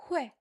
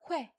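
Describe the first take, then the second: No difference in how they are said.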